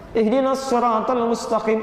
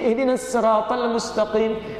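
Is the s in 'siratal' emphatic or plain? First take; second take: emphatic; plain. First: The s in siratal is a heavy emphatic s. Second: The s in siratal is a light plain s. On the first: This is one accepted reading of the word. "bisad, bukan sin, sad" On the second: This is another accepted reading of the word.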